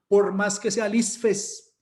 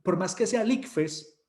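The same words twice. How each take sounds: First: "isfes" with an s for the c; slow, teasing "isfes"; joking mispronunciation. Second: Said in the usual way. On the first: Shown as a demonstration. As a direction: say "isfes", dropping the k sound on purpose. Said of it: "no, yo no digo isfes, es por fregar". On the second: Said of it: "yo no digo isfes".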